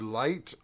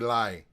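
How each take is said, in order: First: The final T sound is pronounced. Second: The final T sound is dropped. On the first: "I would do light on on the first track" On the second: "On the second one, I would do lie"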